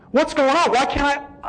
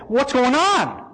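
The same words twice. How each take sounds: First: Frightened cry rising in pitch; rising panic. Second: Raised, alarmed pitch on the question; frightened plea; panicked question. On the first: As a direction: push the repeat up into fear. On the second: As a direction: ask it in rising alarm. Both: Retold or imitated. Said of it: "It freaked the daylights out of me".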